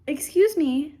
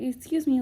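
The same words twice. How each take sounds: First: Louder, higher indignant excuse me at the cat. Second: Retelling excuse me with mild attitude; a light, sassy excuse me without much force; mock indignant. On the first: Real, not acted. Owner scolding her cat walking into the video, indignant. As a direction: snap at the intruding cat with mock outrage. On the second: Vlogger imitating [name]'s attitude, mildly sassy. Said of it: "You know, like".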